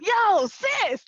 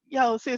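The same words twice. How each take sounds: First: It is said loudly and excitedly. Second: It is said in a flat, plain way.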